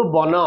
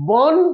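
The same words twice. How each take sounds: First: বন with the final a sounded, bona; Sanskrit pronunciation. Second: বন said slowly as bon with no final vowel; Bengali pronunciation. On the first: Teacher shows the Sanskrit reading of the word. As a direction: end বন on a short open a. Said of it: "সংস্কৃতে যদি বলতে হয়". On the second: Teacher shows how Bengali reads the word. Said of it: "এটাকে বন লিখছি". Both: Shown as a demonstration.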